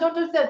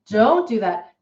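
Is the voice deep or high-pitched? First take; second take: high-pitched; deep. First: It is said in a high, light voice. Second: It is said in a deep, firm voice. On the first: The listener feels no pressure to stop. The speaker calls it wrong. "the owner is in this high-pitched voice" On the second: The listener should feel a little afraid and stop. The speaker calls it right. "that baritone voice creates a little bit of a fear response"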